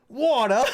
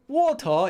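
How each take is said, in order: First: It is said in a New York accent. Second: It is said in a British accent. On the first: "Unless you're talking about New York" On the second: "water in uh Brit- Britain"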